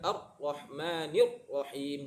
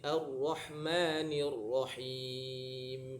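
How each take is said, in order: First: The voice is cut off on the r. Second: The r is held but the voice keeps flowing. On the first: The speaker calls it wrong. "Tapi bukan tahan suara ya, bukan Ar-Rahmanir Rahim, bukan gitu" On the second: The speaker calls it right. "tertahan tapi masih ngalir. Jadi Ar-Rahmanir Rahim"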